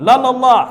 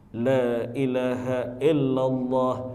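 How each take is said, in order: First: It is said very fast, words run together. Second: It is said slowly, every word clear. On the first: Nothing recognizable is being recited anymore. The speaker calls it wrong. "Ada yang lari gigi lima, ... Tak apa-apa lagi yang dibaca" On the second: The recitation and its meaning are clear. The speaker calls it right. "Ada yang pakai gigi satu, ... jelas bacaannya, jelas maknanya"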